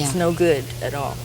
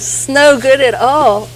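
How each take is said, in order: First: It's and no are said as separate words. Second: The s runs into no, sounding like snow. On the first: "what they were really saying it's no good at all" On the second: "they were just pronouncing it a little different"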